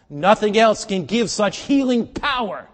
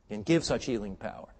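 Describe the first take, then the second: First: Slow, high, very loud proclamation; full-force preaching. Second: Said in the usual way. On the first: Real, not acted. Preacher extolling scripture's healing power, slow full-force shout. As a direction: proclaim it at a shout, stretching the words.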